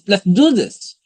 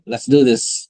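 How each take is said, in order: First: It is said with a lively, convinced tone. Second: It is said in a plain, flat tone. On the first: "you could add tonality like" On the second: "that could be okay"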